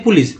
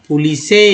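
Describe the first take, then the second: First: "पुलिस" as pulis, no final e; right reading. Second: "पुलिसे" with an extra final e; wrong reading. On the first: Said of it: "पुलिस नहीं बोलते हैं". ("पुलिस" सही उच्चारण पुलिस) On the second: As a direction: read "पुलिसे" letter by letter with a final e. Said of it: "पुलिसे पढ़ते हैं क्या". ("पुलिसे" गलत, अंत में ए) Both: Shown as a demonstration.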